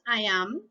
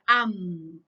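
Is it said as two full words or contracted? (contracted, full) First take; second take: full; contracted. First: Both words are said fully and separately. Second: The two words are merged into one syllable. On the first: "decimos I am" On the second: "la forma contraída sería am, esa es la pronunciación"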